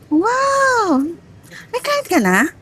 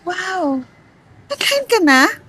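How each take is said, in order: First: It sounds sarcastic. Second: It sounds disappointed and pitiful.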